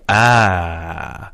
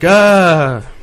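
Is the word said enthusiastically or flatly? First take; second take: flatly; enthusiastically. First: The word is said flatly, with little energy. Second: The word is said with lively, enthusiastic energy.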